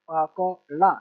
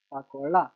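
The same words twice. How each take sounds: First: Each syllable set apart. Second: Said in the usual way. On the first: Shown as a demonstration. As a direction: sound it out piece by piece for a learner. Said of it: "छोटा सा letter पढ़ लेना". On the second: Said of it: "इसको बस मिला के पढ़ना है".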